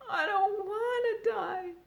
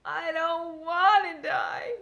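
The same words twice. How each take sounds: First: High, slow tearful moan. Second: Higher, loud, slow wailing shout; crying out. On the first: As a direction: sob the words out. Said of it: "he moaned". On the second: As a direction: throw the words out in despair. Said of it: "cried Wilbur". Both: A narrator's reading.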